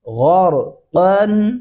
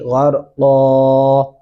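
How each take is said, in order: First: The word ends with an n sound. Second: The word ends on a vowel without n. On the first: The reading continues without stopping. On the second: The reader stops at this word. "वक़्फ़ करते हुए पढ़ेंगे"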